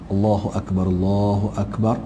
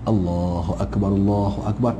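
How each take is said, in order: No difference in how they are said.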